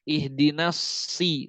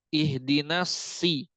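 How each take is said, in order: Both takes have the same delivery.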